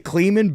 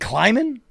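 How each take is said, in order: First: The first vowel sounds like 'ee'. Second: The first vowel sounds like 'eye'. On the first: The speaker calls it wrong. "just not great at coach pronunciations" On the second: The speaker calls it right. "It's Kleiman"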